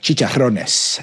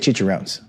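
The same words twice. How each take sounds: First: It is said with a Spanish accent. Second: It is said with an American accent. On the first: The speaker calls it right. "You're supposed to pr- pronounce Spanish language words with uh, inflection" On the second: The speaker calls it wrong. "you can't just say"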